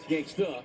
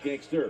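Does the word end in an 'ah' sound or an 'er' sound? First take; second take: ah; er. First: The word ends with an 'ah' sound. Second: The word ends with an 'er' sound. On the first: The speaker calls it right. "That's gangsta" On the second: The speaker calls it wrong. "not gangster"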